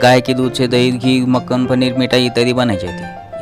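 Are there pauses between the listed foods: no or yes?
no. The listed foods run together without pauses. The speaker calls it wrong. "ऐसा पढ़ना गलत होता है"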